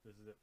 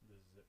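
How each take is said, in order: First: The voice is weaker, heard off to the side. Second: The voice is barely audible at all. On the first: "This is it from the side" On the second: "This is it from the back. You really can't hear me"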